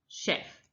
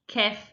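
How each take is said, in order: First: The word begins with a sh sound. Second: The word begins with a k sound. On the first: "If that doesn't work, try sh" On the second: "If that doesn't work, try k"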